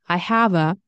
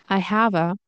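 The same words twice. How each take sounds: No difference in how they are said.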